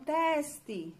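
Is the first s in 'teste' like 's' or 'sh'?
sh. The s before the t sounds like sh. This is how people in Rio de Janeiro say it. "Lá no Rio de Janeiro eles falam teste"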